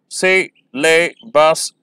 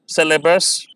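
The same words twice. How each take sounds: First: "सिलेबस" very slow, si-la-bus split; syllable by syllable. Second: Said in the usual way. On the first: Shown as a demonstration. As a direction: count out "सिलेबस" in three beats. ("सिलेबस" बहुत धीरे, तीन syllable में) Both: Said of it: "आप pronounce करेंगे".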